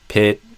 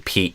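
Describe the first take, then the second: First: The vowel is short, open and lax. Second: The vowel is long, close and tense. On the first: The speaker calls it wrong. "you did a little more like eh" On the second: The speaker calls it right. "where I would say Pete"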